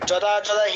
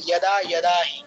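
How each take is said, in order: First: The words begin with a j sound. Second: The words begin with a y sound. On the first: The speaker calls it wrong. "আর কখনোই বলবো না" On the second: The speaker calls it right. "আমরা বলবো"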